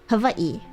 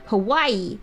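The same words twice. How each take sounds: First: The middle consonant is a V sound. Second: The middle consonant is a W sound. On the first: "it's pronounced as V" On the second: "it's not just pronounced as a W"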